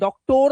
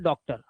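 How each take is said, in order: First: The last syllable has a full 'or' vowel. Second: The last syllable has a reduced 'er' vowel. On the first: The speaker calls it wrong. "लेकिन हम डॉक्टर नहीं बोलते" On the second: The speaker calls it right. "हम बोलते डॉक्टर"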